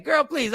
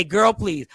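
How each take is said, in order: First: Quick sassy brush-off, laughing. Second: Put-on repeating girl please plainly; quoting girl please. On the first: Real, not acted. Host caught saying girl please, laughing. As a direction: toss it off with sass. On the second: Host repeating what guest made him say, plain. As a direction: quote it back flat. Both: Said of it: "you just made me say".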